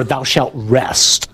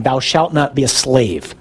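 First: Very slow, each word weighted; solemn commandment. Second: Slow, weighty commandment voice; solemn commandment. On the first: Preacher intoning the Sabbath command, drawn out and solemn. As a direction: lay down the law slowly. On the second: Preacher intoning the commandment to the congregation, slow and solemn. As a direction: intone it like scripture. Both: Shown as a demonstration. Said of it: "I just kinda sum up by saying".

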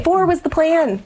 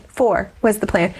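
First: Much higher, insisting on the number; emphatic, high. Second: Said in the usual way. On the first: Real, not acted. Mother insisting to the host they were done, much higher. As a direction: lift the whole line high and firm. Repeats her point twice.

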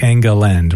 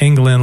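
First: England in three syllables, unlike the country; three-syllable surname. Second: Said in the usual way. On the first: Shown as a demonstration. Host confirming guest's surname, three-syllable pronunciation. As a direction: say England as ENG-uh-land. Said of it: "it's not England like the country". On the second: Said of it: "like the country".

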